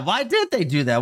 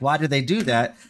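First: It sounds intrigued and excited. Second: It sounds annoyed and disapproving.

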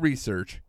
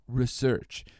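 First: The word is said in the ordinary everyday way. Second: The word is said in a British-sounding way. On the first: This is how most people say it. "it's not research" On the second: The speaker has a doctorate and sounds arrogant. "It's research. Whenever you have like a doctorate, apparently that's how you say research"

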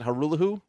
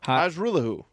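First: The J sound in the name is silent. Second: The J sound in the name is pronounced.

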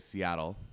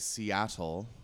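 First: The middle T is dropped or softened. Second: The middle T is pronounced clearly. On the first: The speaker calls it wrong. "We say Seattle. ... we drop our T's" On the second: The speaker calls it right. "we don't say Seattle"

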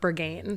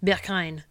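First: The name is said with an American pronunciation. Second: The name is said with a German pronunciation. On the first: "Americans say it like Berghain" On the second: "it seems like the German pronunciation is like Berghain"

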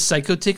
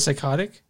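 First: The word is pronounced in an altered, unusual way. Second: The word is pronounced in its ordinary way. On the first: This is how the singer delivers it in the song. "he says psychotic instead of" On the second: This is the usual way the word is said. "I've heard it say it normally in other songs"

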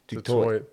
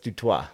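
First: The name has the common South African pronunciation. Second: The name has the original French pronunciation. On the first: The speaker calls it wrong. "a lot of them pronounce it Du Toit" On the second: The speaker calls it right. "but it's Du Toit"

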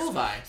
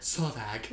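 First: The name ends in a vowel, no G. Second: The name ends with a hard G sound. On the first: The speaker calls it right. "Silent G" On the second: The speaker calls it wrong. "You were like"

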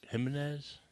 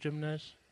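First: The name has a Spanish-style pronunciation. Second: The name has an English-style pronunciation. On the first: "but it was really, like" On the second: "His last name was Jimenez"

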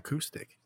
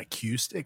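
First: The second syllable sounds like "coo". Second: The second syllable sounds like "cue". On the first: The speaker calls it right. "Like who? Not a Q" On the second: The speaker calls it wrong. "Not acoustic"

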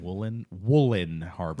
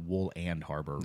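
First: The first word sounds like 'woolen'. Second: The first word sounds like 'wool and'. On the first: The speaker calls it right. "Right, Woolen Harbor" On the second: The speaker calls it wrong. "Not Wool and Harbor"

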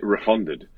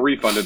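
First: The word has a put-on British pronunciation. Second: The word has a plain, non-British pronunciation. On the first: The speaker calls it right. "As the British say" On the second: The speaker calls it wrong. "So not refunded"

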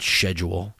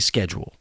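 First: The word is said the European way. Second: The word is said the American way. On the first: The speaker calls it wrong. "We can't be running around here saying schedule. That's got to stop" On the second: The speaker calls it right. "we got to say schedule"

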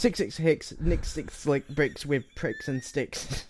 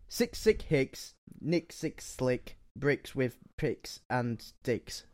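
First: It is said fast. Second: It is said at a normal speed.

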